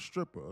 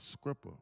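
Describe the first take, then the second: First: The word begins with an 'str' sound. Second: The word begins with an 'scr' sound. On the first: "not a stripper" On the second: "a scripper, like they said in Atlanta"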